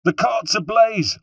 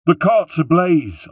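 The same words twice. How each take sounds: First: Put-on far higher, slow, loud cry in a Corsican accent; Corsican rebel shout. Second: Put-on much higher, slow, loud alarm in a Corsican accent; Corsican rebel shout. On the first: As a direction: repeat the alarm louder as a Corsican rebel. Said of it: "I repeated". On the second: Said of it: "I shouted, this time in ... of a Corsican".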